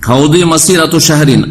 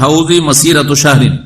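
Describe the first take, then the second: First: হাউদি with a d sound near z; Arabic quote with the dad sound. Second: হাউজি with a z sound; Arabic quote read as hauzi. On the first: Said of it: "জয়ের কাছাকাছি". (হাউদি, দদ ধ্বনিতে উচ্চারণ) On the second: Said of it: "যারা দাল পড়ে তারাও জাহেল". (হাউজি, জ দিয়ে উচ্চারণ) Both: Shown as a demonstration.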